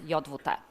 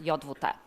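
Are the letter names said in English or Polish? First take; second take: Polish; Polish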